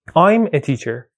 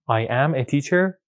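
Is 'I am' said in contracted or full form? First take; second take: contracted; full. First: I am is contracted into one syllable. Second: I am is said as two full words.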